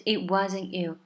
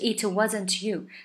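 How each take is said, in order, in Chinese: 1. 结尾的 t 音被吞掉，几乎不碰。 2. 结尾的 t 音明显爆破出来。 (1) "这个it 结尾的t 还有wasn't 结尾的t 都被吞掉了" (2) "它不是it wasn't you"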